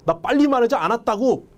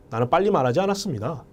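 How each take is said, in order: First: High-pitched, indignant protest; angry denial. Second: Said in the usual way. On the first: Acted. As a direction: act annoyed at being wrongly accused. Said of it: "화가 나서 그러는 거예요". (화나서 항변하는 말투) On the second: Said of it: "감정만 여러분들이 주입시키면".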